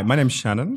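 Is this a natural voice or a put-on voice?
natural. It is said in the speaker's natural voice.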